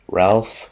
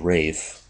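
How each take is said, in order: First: The name is said with an L sound. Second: The name is said without an L sound.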